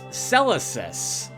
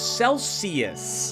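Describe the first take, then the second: First: The name sounds like Celesis, with an extra syllable. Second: The name sounds like the word Celsius. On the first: The speaker calls it right. "It's Celesis" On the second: The speaker calls it wrong. "I've been mispronouncing this place. I thought it was Celsius"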